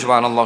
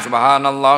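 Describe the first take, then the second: First: It is said fast. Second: It is said at medium pace.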